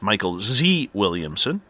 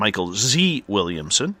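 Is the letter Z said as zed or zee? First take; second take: zee; zee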